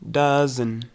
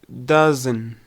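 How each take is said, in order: Both takes have the same delivery.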